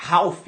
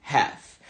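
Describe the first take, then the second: First: "half" lido como se escreve, com a aberto; "half" pronunciado igual à escrita; pronúncia errada. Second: "Half" com vogal é aberta, como "héf"; pronúncia certa. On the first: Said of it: "você acha que a pronúncia seria". ("half" do jeito errado, com a aberto) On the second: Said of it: "na verdade, a pronúncia é". ("Half" na pronúncia nativa) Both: Shown as a demonstration.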